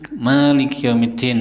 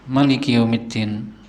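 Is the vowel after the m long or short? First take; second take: long; short. First: The vowel after the m is long. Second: The vowel after the m is short. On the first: "memnya panjang" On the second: "boleh juga dibaca pendek memnya"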